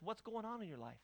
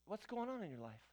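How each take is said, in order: First: Soft, gentle "What's going on in your life?" with a falling end; caring question. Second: Soft, gentle question to someone troubled; caring question. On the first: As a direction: ask it softly, the way a pastor would. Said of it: "let me ask this". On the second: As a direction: ask it quietly, like you truly care. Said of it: "I'm gonna ask you". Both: Shown as a demonstration.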